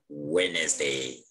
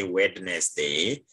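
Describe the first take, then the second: First: "Wednesday" with no D sound, WEN-es-day; silent D. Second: "Wednesday" with the D sounded, WED-nes-day; D wrongly pronounced. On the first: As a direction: leave the first D out of "Wednesday". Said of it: "You read it like". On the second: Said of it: "So don't say Wednesday". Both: Shown as a demonstration.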